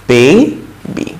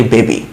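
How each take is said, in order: First: বেবি said as "beibi", with the ei glide in the first syllable; correct English pronunciation. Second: বেবি said as plain "bebi", a flat e vowel with no glide; the mispronounced বেবি, "bebi" with a short e; common wrong pronunciation. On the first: Teacher models the right English sound for students: বেবি as "beibi". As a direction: give বেবি the English "bay-bee" diphthong, "beibi". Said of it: "আসল প্রনাউন্সিয়েশনটা কি?". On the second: Teacher shows students the usual Bengali mistake: বেবি as "bebi". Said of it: "বেবি না কিন্তু". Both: Shown as a demonstration.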